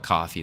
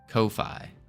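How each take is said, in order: First: The first vowel is an 'aw' sound, coffee. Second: The first vowel is an 'oh' sound, ko-fee. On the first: "I'm just gonna call it coffee though" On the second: "I'm pretty sure that's how you pronounce it"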